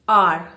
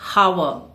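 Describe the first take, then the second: First: The word begins with a vowel sound. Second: The word begins with an H sound. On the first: The speaker calls it right. "Here the H is silent. You say R" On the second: The speaker calls it wrong. "not hour"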